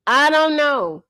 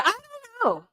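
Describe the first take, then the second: First: Said in the usual way. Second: Much higher, softer, sung-out mock; mock high singsong. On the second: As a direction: toss off "I don't know" way up high, softly. Mock repeat, high then plain.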